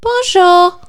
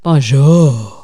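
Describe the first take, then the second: First: Bonjour sung up high and loud; a squeaky, much higher Bonjour; high-pitched bonjour. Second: Bonjour brought down low; lower bonjour. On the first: S0 to S1, asked for her best bonjour, squeaky. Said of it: "do your best bonjour". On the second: S0 retrying bonjour after criticism, lower. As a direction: drop Bonjour into a lower, calmer register. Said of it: "There you go". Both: Shown as a demonstration.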